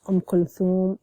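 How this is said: The middle consonant is a th sound. "in the formal"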